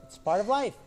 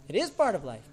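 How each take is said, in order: First: Said in the usual way. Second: IS stressed, the rest falling away. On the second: Shown as a demonstration. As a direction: lean hard on the word IS, conceding it. Re-affirms with stressed verb.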